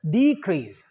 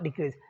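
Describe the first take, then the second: First: The stress is on the first syllable. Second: The stress is on the second syllable. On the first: The speaker calls it right. "If it is a noun ... The first syllable is D" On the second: The speaker calls it wrong. "not decrease"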